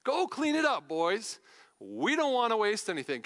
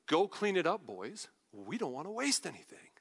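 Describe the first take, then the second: First: Delighted, emphatic mock command; relishing the line. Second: Understated paraphrase. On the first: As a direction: savour it as a triumphant punchline. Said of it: "I love that". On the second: Retold or imitated. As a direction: toss it off coolly to the crew. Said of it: "I'm gonna paraphrase this for you".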